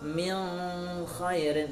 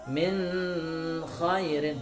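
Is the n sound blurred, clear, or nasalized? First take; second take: blurred; nasalized. First: The n is blurred and half hidden. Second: The n is held with a nasal hum. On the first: "Atau juga dibaca dengan samar" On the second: "tidak boleh dengung"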